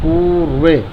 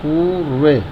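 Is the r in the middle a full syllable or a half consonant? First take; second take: half consonant; half consonant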